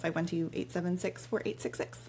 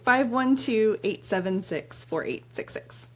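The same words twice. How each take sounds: First: The number is said quickly. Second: The number is said slowly.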